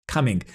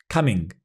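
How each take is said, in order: Both takes have the same delivery.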